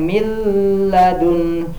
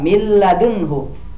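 First: The n is held with a nasal hum. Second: The n merges fully into the l. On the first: The speaker calls it wrong. "jangan didengungkan, jangan min ladun" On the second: The speaker calls it right. "tapi cukup satu harokat milladunhu"

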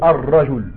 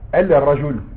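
First: The L merges into a doubled R sound. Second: The article's L is heard before the R. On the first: The speaker calls it right. "tu dis Ar Rajoul. Le lem devient Arra" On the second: The speaker calls it wrong. "Tu dis pas El Rajoul"

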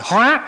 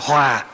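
First: The word is said on a high rising tone. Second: The word is said on a low falling tone. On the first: Transformation. "từ dấu sắc" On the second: Harmony. "chuyển nó thành dấu huyền"

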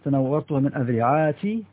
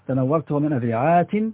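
First: The last word ends in -i without a final n. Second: The last word ends in -i with a final n. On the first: "ومن غير تنوين" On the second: "بالكسر والتنوين"

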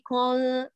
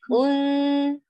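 First: The nasal sound comes from the mouth. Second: The nasal sound resonates through the nose. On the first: The speaker calls it wrong. "تقولي كون من الفم" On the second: The speaker calls it right. "هاتيها من الخيشوم"

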